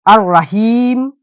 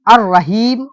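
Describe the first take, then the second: First: अर्रहीम drawn out slowly, doubled र, no lam sound; slow demo pronunciation. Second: अर्रहीम with the doubled र held, ar-rahim; demo pronunciation. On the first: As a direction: stretch अर्रहीम out syllable by syllable for the class. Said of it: "ऐसे पढ़ देंगे". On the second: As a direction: say अर्रहीम slowly with the lam silent, ar-raheem. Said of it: "कैसे पढ़ते हैं हम लोग". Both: Shown as a demonstration.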